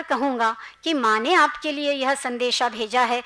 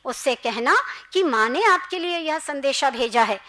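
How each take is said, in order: First: Said in the usual way. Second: माँ pressed firmly, set apart from the rest; stress on माँ. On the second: A narrator's reading. Mother corrects the boy's message, stressing माँ. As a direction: lean gently but firmly on माँ. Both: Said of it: "माँ शब्द पर जोर देते हुए कहा".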